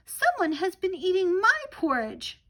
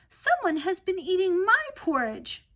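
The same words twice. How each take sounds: First: It is said in a tiny little voice. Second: It is said in a tiny little voice.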